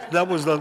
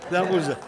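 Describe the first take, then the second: No difference in how they are said.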